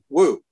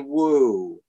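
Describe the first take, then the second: First: The word is said short, sharp and abrupt. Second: The word is said softly and drawn out. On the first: The horse should stop very quickly. "If I want the horse to stop very quickly" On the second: The horse should slow down. "if I'd like the horse to slow down"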